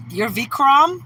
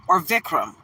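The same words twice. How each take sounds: First: "Vikram" tried higher and louder, first guess at the stress; "Vikram" said brightly as one pronunciation option; "Vikram" as a first attempt, higher; first try at a name. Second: "Vikram" said lower as the other option; "Vikram" tried again, lower and questioning; "or Vikram?" second pronunciation guess, lower; second try at a name. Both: Shown as a demonstration. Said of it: "Did I say it right the first or the second time".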